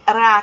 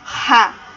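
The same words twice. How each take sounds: First: The R is trilled with the tongue tip. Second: The R is made in the throat. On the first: This is the weak R sound. "esse ra que treme o R, a ponta da língua, é o R do som fraco" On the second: This is the strong R sound. "O som forte é aquele ra, ra que treme a garganta"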